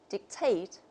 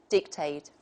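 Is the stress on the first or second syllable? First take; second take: second; first. First: The stress is on the second syllable. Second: The stress is on the first syllable. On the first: This is the British pronunciation. "the stress is on the second syllable" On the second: This is the American pronunciation. "the American model will just take the opposite"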